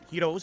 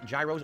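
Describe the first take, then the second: First: The word rhymes with 'heroes'. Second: The word does not rhyme with 'heroes'. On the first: This is how restaurants pronounce it. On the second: This is the speaker's own habitual pronunciation.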